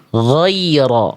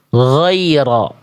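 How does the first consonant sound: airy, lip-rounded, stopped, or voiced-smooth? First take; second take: voiced-smooth; voiced-smooth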